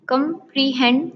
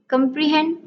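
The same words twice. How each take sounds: First: "कॉम्प्रिहेंड" as com, pre, hend with gaps; split into syllables. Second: Said in the usual way. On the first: Shown as a demonstration. Teacher counting three syllables in comprehend, one by one. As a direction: break "कॉम्प्रिहेंड" into three pieces. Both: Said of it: "three syllables".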